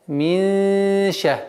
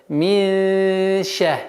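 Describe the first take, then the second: No difference in how they are said.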